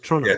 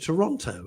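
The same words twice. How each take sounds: First: It is said with a Canadian pronunciation. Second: It is said with a non-Canadian pronunciation. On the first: "and they go" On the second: "We say, "Oh, I'm going to Toronto,""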